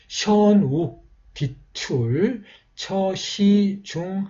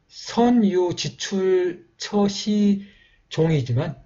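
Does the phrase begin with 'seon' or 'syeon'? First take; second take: syeon; seon. First: It begins with syeon and has di-tul. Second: It begins with seon and has ji-chul. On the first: This is the old pronunciation of the text. "이 발음으로는 이렇게" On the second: This is the present-day reading. "지금은 이제"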